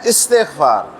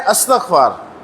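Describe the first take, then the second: First: The word begins with an 'i' vowel. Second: The word begins with an 'a' vowel. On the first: The speaker calls it right. "जबकि असल में है इस्तिग़फ़ार" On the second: The speaker calls it wrong. "हम करते हैं अस्तग़फ़ार"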